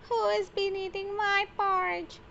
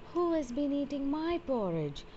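First: It is said in a tiny, squeaky voice. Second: It is said in a medium voice.

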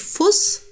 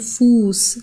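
First: The vowel is short. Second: The vowel is long. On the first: The speaker calls it wrong. "also man sagt nicht Fuß zum Beispiel" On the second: The speaker calls it right. "das wird länger ausgesprochen, der Vokal"

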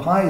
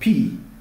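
First: The word is said with an 'eye' vowel. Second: The word is said with an 'ee' vowel. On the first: This is the pronunciation most people use. The speaker calls it wrong. "pi is incorrect" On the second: This is the original Greek pronunciation. The speaker calls it right. "this one is pronounced in its own Greek form"

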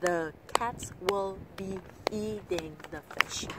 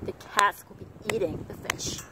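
First: Every word gets an even, equal beat. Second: Only cats, eat and fish are stressed.

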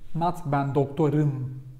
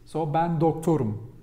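First: The last vowel is overly rounded, lips moved much. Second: The last vowel is plain, with little lip rounding. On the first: The speaker calls it wrong. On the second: The speaker calls it right.

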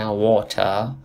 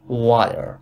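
First: The middle t is a clear t sound. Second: The middle t sounds like a soft d. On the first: "توی بریتانیایی میگن واتر" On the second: "تو آمریکایی میگن واتر"

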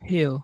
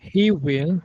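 First: The words are merged into one short syllable. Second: Both words are said fully and separately.

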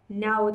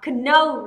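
First: The k at the start is silent. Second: The k at the start is pronounced. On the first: The speaker calls it right. "Âm ca đến trước âm n là âm ca phải cầm" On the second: The speaker calls it wrong. "chúng ta lại đọc là know là sai rồi"

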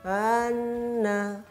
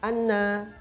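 First: The doubled n is dragged out too long. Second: The doubled n is clipped very short. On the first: "atau terlalu menyeret" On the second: "terlalu cepat"

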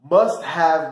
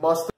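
First: The word have is said in full. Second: Have is reduced to a short uh sound.

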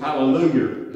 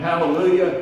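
First: It is said Southern, with an R added. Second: It is said plainly, ending in an A sound.

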